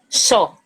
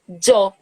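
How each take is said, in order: First: It begins with an 'sh' sound. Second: It begins with a 'dj' sound. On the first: "Como se fosse C H O, xó" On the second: "como se fosse D J O, yo"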